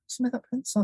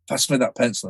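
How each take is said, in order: First: It is said with almost no energy. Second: It is said with less energy.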